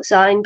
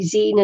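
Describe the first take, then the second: First: "zine" rhyming with sign; long-i pronunciation. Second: "zine" as in magazine; long-ee pronunciation. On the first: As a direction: say "zine" with an eye vowel. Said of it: "and not zine". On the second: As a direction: say "zine" to rhyme with seen. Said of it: "'cause, uh, it's magazine". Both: Shown as a demonstration.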